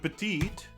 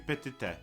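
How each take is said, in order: First: The word ends with a silent final e. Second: The word ends with a sounded final e. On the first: "instead of" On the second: "we are now pronouncing every letter in every word"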